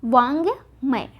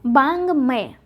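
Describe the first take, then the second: First: वांगमय drawn out as vaang-may; v, not b, opening वांगमय; correct form वांगमय. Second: बांगमय as baang-may; the mistaken b opening of बांगमय; wrong form बांगमय. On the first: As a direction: slowly say वांगमय with initial v. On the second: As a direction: say बांगमय with initial b. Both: Shown as a demonstration. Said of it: "बांगमय नहीं होके क्या होगा".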